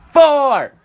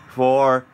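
First: High shouted countdown number; new year countdown crowd. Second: Said in the usual way. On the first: Real, not acted. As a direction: yell it out with the crowd.

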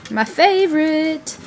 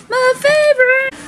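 First: Said in the usual way. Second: High, lilting second "favorite"; sing-song high repeat. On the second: Real, not acted. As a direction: lift "favorite" way up, playful and chirpy.

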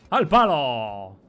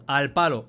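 First: Loud, long-stretched call; drawn-out shout. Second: Said in the usual way. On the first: Pretend. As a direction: call it out loud, dragging the vowels. Repeats it as a triumphant call.

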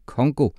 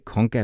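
First: "Congo" said as the right name; corrected name. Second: "Conga" said as the wrong name. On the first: Umfufu corrects the teacher to "Congo". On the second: Umfufu repeats the teacher's wrong "Conga". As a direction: stress "Conga" as the mistake. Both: Acted. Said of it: "Nej, ikke Conga, men Congo".

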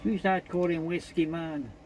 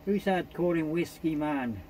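Both takes have the same delivery.

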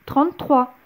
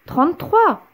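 First: Said in the usual way. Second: Much higher, louder exasperated repeat; annoyed doctor insisting; irritated doctor. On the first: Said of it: "poursuivit le docteur". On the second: A narrator's reading. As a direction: lose patience on "Trente-trois". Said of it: "s'énerva le docteur".

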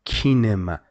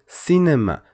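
First: Kinema with a hard k sound; wrong hard c. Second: Cinema with a soft s sound; French cinéma. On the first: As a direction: say kinema with a k, the mistake. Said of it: "Don't pronounce it". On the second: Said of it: "you must pronounce it C". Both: Shown as a demonstration.

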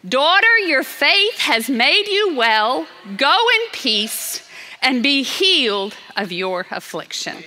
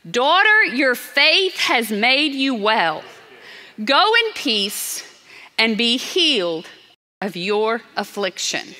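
First: Emphatic blessing. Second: Tender blessing. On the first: Repeats Jesus' words with more force. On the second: Jesus speaking to healed woman. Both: Acted.

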